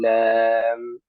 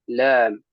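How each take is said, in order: First: The end of the name is cut short. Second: The end of the name is fully completed. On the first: The speaker calls it wrong. "لا نقول لام" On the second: The speaker calls it right. "وإنما نقول لام"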